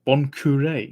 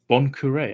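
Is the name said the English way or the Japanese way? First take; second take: Japanese; Japanese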